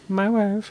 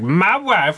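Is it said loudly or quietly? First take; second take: quietly; loudly. First: It is said quietly under the breath. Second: It is said loudly and obnoxiously.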